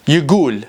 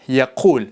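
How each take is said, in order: First: It is said with a g sound, Iraqi style. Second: It is said with a q sound, Standard style.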